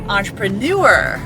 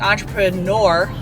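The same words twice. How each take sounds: First: The last vowel is said like French EU. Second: The last vowel is said as a plain O. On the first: The speaker calls it right. "but it's actually entrepreneur" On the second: The speaker calls it wrong. "it said like entrepreneur with the O"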